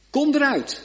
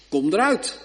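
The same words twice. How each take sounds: First: Much higher, louder ringing command; krachtig bevel. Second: Said in the usual way. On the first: Acted. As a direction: call it out with full power. Jezus' bevel, climax. (hoog en luid uitgeroepen: Kom eruit)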